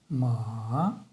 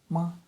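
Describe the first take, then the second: First: The pitch dips low, then rises. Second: The pitch is short, light and unstressed. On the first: "нисходящий и восходящий тон" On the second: "еще один тон"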